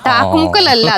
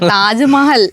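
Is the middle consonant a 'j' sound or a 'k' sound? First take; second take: k sound; j sound. First: It is said as 'Thakkumukkal' with k sounds. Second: It is said as 'Taj Mahal' with j sound. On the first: The speaker calls it wrong. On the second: The speaker calls it right.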